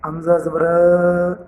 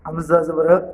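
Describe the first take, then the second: First: It is said slowly with sounds stretched out. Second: It is said with an abrupt, jerky push. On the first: "ये तरीका गलत है, इसको खींच कर नहीं पढ़ेंगे" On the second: "ये गलत है, इसको झटका कहा जाता है"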